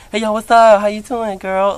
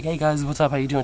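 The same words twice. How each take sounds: First: Higher, louder, flamboyant sing-song hello; campy sassy greeting. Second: Said in the usual way. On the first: Retold or imitated. Imitating his new greeting to friends, high and campy. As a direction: greet your friends like a fabulous diva.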